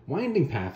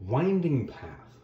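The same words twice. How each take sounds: First: Said in the usual way. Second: Very slow, stretched winding path; winding path said at a crawl; drawn-out phrase. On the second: Shown as a demonstration. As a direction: let the words wind slowly. Stretches phrase to show meandering.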